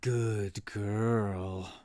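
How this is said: It sounds menacing, like a villain speaking. It is said as a threat to a captive. The speaker calls it right. "I'm gonna channel my inner villain"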